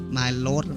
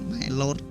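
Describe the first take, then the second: No difference in how they are said.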